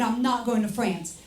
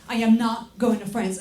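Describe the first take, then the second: First: Said in the usual way. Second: Full "I am" with a firm hit on "not"; emphatic restatement. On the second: Retold or imitated. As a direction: punch "am not" in "I am not going to France". Acted quote, emphatic restatement.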